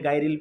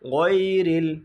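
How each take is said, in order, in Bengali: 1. প্রথম ভাঁজটি সাধারণ 'gai' এর মতো শোনায়। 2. প্রথম ভাঁজটি গলার ভেতর থেকে আসা 'gh' ধ্বনি দিয়ে শুরু হয়। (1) "আমরা এখানে গাইরিল পড়ি" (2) "গয়ন জবর গ"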